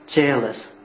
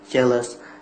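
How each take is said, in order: First: The stress is on the first syllable. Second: The word is said flat, without clear stress. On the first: The speaker calls it right. "the stress, the first syllable" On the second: The speaker calls it wrong. "we talk like flat without intonation"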